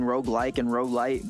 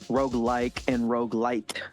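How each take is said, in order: First: The words are said quickly and run together. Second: The words are said slowly with clear endings. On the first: "it sounds literally the same when you're saying it fast" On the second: "I need to say it"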